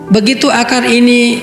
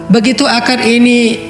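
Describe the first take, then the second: No difference in how they are said.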